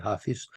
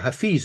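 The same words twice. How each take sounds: First: The name is said in a German way. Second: The name is said in a non-German way. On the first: The speaker calls it wrong. "the Germans always say" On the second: The speaker calls it right. "as it should probably be pronounced"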